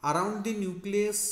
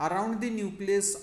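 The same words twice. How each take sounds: The two takes are said the same way.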